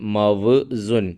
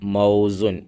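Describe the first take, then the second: First: The first syllable ends in a v consonant. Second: The first syllable has an au diphthong. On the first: The speaker calls it wrong. "മൗസുൻ എന്നുള്ളതിൽ മവ് സുൻ" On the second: The speaker calls it right. "ആ വ് എന്നതിൻ്റെ കൃത്യമായിട്ടുള്ള ഉച്ചാരണം"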